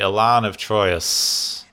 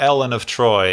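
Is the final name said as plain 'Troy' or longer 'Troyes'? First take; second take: Troyes; Troy. First: The name is said with a longer 'Troyes' ending. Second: The name is said like plain 'Ellen of Troy'. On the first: The speaker calls it right. "Not Troy" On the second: The speaker calls it wrong. "Not Ellen of Troy"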